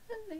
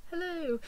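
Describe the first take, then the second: First: Tiny, very high, soft hello; shy. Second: High, breezy hello imitating a boyfriend; casual greeting. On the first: Retold or imitated. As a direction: imitate being too starstruck to speak up. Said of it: "I just went so shy". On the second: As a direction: toss off an easy, friendly hello. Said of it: "talked so casually to Daniel Radcliffe".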